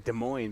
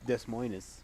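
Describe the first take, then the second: First: The name is said the usual spoken way. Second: The name is sounded out as it is written. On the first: "you say Des Moines" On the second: "it's sp- spelled Des Moines"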